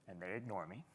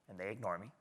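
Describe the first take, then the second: The two takes are said the same way.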